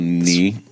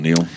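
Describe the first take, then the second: First: The name ends without any L sound. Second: The name ends with an audible L sound. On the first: The speaker calls it right. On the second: The speaker calls it wrong.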